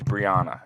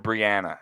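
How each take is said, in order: First: The A vowel is said soft. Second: The A vowel is said hard. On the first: "It's always Brianna" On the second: "it's never Brianna"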